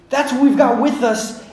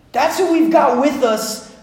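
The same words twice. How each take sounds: The two takes are said the same way.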